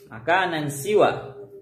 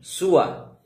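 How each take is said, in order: First: The second word begins with an 'i' vowel. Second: The word begins with a 'u' vowel. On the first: "dikasih awali bisa dibaca siwan" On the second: "juga bisa dibaca dhammah sinnya"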